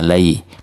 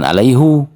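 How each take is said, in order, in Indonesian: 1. Kata ini berakhir tanpa vokal di akhir. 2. Kata ini berakhir dengan vokal 'u'.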